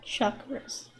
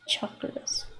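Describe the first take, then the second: First: The word begins with a sh sound. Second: The word begins with a ch sound. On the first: The speaker calls it wrong. "not chakras" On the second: The speaker calls it right. "It's C H, therefore it should be pronounced chakras. It is pronounced chakras"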